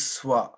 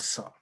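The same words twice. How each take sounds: First: "swa" with a w glide after the s; SWA pronunciation. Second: "sa" with no w glide; SA pronunciation. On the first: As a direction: say "swa" with s and w blended. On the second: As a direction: say "sa" with the vowel straight after s. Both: Shown as a demonstration. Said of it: "not sa".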